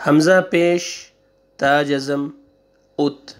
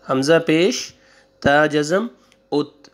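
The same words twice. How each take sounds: The two takes are said the same way.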